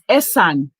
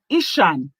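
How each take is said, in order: First: The name is said as 'Ee-san', without a 'sh'. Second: The name is said as 'Ish-an', with a 'sh'. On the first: This is the name the local people use. "my people recognize it as Esan" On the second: This is the name foreigners and the English use. "the English call it Ishan"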